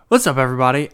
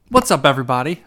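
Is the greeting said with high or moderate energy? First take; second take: moderate; high. First: It is said calmly with moderate energy. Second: It is said loudly with high energy.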